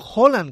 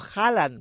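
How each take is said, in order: First: The name is pronounced the Norwegian way. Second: The name is pronounced the Spanish way. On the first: The speaker calls it right. "que es como se dice en noruego" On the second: The speaker calls it wrong. "y no Haaland"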